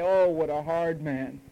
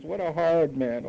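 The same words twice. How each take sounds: First: Slow, whiny imitation of a sulking listener; sulky mock grumble; mock complaint. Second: Slow sulky mock grumble; hammed-up complaint. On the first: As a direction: drag it out like you're hard done by. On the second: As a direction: repeat the whine, drawn out. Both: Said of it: "you say".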